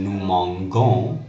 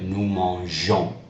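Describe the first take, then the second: First: The g is pronounced hard. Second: The g is pronounced soft. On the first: The speaker calls it wrong. "which is incorrect" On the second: The speaker calls it right. "we need to keep that soft G sound"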